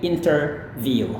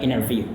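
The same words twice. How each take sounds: First: The t after the n is clearly pronounced. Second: The t after the n is dropped. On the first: This is how British and many other speakers say it. "mereka melafalkannya dengan T-nya" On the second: This is how most Americans say it. "T-nya juga boleh mati"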